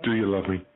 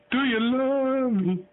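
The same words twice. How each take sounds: First: Said in the usual way. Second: Drawn out up high, like talking to a bird; high slow parrot-coaxing voice. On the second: Shown as a demonstration. Owner coaxing his parrot to talk, high and drawn out.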